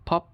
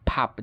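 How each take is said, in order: First: British ফপ (pop) with rounded O; British pronunciation. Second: American ফাপ (pop) as PAHP; American pronunciation. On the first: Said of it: "ব্রিটিশরা যেসব জায়গায় অ". (ফপ-এ অ, British উচ্চারণ) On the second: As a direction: open AH in ফাপ. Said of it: "উচ্চারণ করে আ". (ফাপ-এ আ, American উচ্চারণ) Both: Shown as a demonstration.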